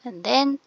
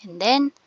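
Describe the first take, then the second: No difference in how they are said.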